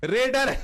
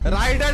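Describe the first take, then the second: First: The first vowel sounds like 'raid'. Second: The first vowel sounds like 'ride'. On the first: The speaker calls it right. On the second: The speaker calls it wrong. "राइडर नहीं होता है"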